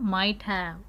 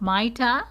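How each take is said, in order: First: Both words are said fully and separately. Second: The words blend into one reduced form.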